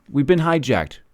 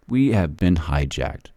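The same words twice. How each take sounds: First: Said in the usual way. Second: Much lower, softer and slower, "hijacked" sinking away; quiet grave repeat. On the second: Real, not acted. Repeating his warning to viewers, sinking to a grave hush. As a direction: let the line drop into a heavy near-whisper.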